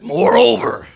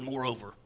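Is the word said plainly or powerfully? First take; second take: powerfully; plainly. First: The word is said with strong, powerful force. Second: The word is said plainly, without extra force.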